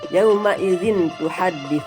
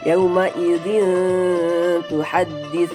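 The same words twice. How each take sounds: First: The n sound is pronounced clearly before t. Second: The n sound is blurred and held before t. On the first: The speaker calls it wrong. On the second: The speaker calls it right. "harus disamarkan, tidak dengung dan tidak pula jelas"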